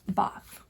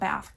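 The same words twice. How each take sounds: First: It is said with a long British vowel. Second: It is said with a flat American vowel.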